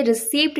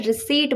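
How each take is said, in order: First: रिसीप्ट with the p sounded, ri-seept; wrong pronunciation. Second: रिसीट with silent p, ri-seet; correct pronunciation. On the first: Teacher showing the wrong रिसीप्ट with p sounded. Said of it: "नहीं बोलना है". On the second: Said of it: "रिसीट बोलना है". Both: Shown as a demonstration.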